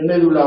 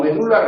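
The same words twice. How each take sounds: First: "médula" as MÉ-du-la; "médula" stressed third from the end. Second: "medula" as me-DU-la; "medula" with the beat on DU; stress on DU. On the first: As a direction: hit the first syllable of "médula". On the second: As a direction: hit the middle syllable of "medula". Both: Shown as a demonstration. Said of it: "Se puede decir".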